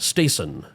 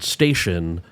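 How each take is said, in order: First: The middle consonant is a plain 's' sound. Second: The middle consonant is a 'sh' sound. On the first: "some people would pronounce the word station as uh, stason" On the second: "instead of the sh"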